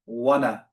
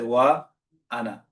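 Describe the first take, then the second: First: The words run together without a glottal stop. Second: A glottal stop separates the two words. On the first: The speaker calls it wrong. "you're not going to say" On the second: The speaker calls it right. "You're going to say"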